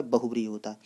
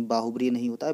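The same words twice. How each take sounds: First: बहुब्रीहि with a short first vowel, as in bə-hu-bri; correct form shown. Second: बाहुब्रीहि with a long aa in the first syllable, as in baa-hu-bri; wrong form shown. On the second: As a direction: lengthen the first vowel of बाहुब्रीहि to mark the mistake. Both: Shown as a demonstration.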